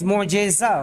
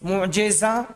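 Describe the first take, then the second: First: The vowel after the j is 'e'. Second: The vowel after the j is 'i'. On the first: The speaker calls it wrong. "मोजेजा बोलते हैं गोलते के साथ" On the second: The speaker calls it right. "जिम पर कसरा है।"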